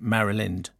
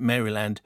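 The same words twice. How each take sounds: First: The last syllable is a reduced 'lind'. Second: The last syllable is a full 'land'. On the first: The speaker calls it right. "like Marilyn with a D on the end" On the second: The speaker calls it wrong. "you don't pronounce it Maryland"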